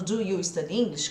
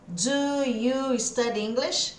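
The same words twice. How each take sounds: First: "Do you study English?" spoken fully, word by word; careful form. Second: "Do you study English?" slow, every word separate; full careful form. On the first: Teacher warning against the stiff version. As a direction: sound each word out like a textbook. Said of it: "se eu ficar falando". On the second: Teacher showing how not to say it. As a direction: say it slowly and stiffly, word by word. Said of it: "a gente não fala assim". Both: Shown as a demonstration.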